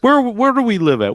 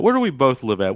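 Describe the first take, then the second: First: High, incredulous rhetorical question; exasperated question. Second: Said in the usual way. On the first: Real, not acted. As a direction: ask it like it's obvious.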